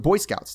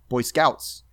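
First: The stress falls on the first word. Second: The stress falls on the second word. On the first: It is an established compound term. "the emphasis to the first syllable" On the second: It is a new phrase, not yet a fixed term. "when they first get invented"

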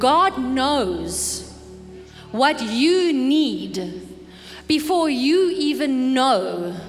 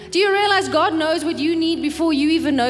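First: The sentence is spoken at a slower pace. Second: The sentence is spoken at a quicker pace. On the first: "Let me say that slowly" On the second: "That was a mouthful"

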